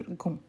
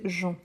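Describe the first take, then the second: First: "gon" starting with a hard G; hard G syllable. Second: "jon" starting with a soft zh; soft J syllable. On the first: Teacher isolating the sound to avoid, "gon" with hard G. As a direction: say "gon" with G as in go, plus nasal vowel. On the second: Teacher isolating the correct sound, "jon" with soft J. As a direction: say "jon" as in French mangeons, zh plus nasal vowel. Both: Shown as a demonstration. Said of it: "avec le son de jon et pas gon".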